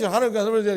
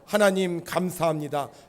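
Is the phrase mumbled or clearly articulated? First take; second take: mumbled; clearly articulated. First: The phrase is mumbled and indistinct. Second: Each syllable is articulated crisply and clearly. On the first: The speaker calls it wrong. "우리 할머니 하나님 감사합니다 이러지 말고" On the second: The speaker calls it right. "또박또박"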